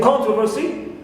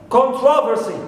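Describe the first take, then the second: First: The stress is on the first syllable. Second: The stress is on the second syllable. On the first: "sometimes the first syllable is stressed, like here" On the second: "Second is stressed"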